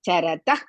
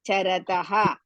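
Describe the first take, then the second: First: The ending runs straight into the next word. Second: The ending is released with a full separate 'ha'. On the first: The speaker calls it right. "we have to continuously say that" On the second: The speaker calls it wrong. "You cannot say charataha"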